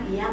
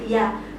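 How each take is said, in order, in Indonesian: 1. Diucapkan dengan lembut dan mendayu. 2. Diucapkan dengan tajam dan agak keras. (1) "Nah itu kan enak ya, ... mendayu-dayu" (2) "intonasinya agak kenceng dikit kita merasa tersinggung"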